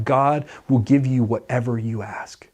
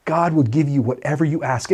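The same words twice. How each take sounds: First: Hushed, almost a whisper; whispered faith. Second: Said in the usual way. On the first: Shown as a demonstration. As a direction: breathe it like a secret.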